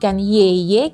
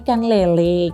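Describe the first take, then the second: First: The L sounds are replaced by Y sounds. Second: The word is said with clear L sounds. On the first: A small child cannot yet say the sound. The speaker calls it wrong. "masih cadel" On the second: An adult repeats the word correctly for the child. The speaker calls it right.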